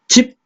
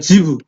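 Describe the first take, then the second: First: The final consonant is cut off abruptly. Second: The final consonant trails on with a vowel. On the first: "딱딱 소리를 끊어줘야 되거든" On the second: "못 끊고 뒤로 가는 거야"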